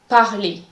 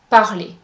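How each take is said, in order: First: The final R is silent. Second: The final R is silent.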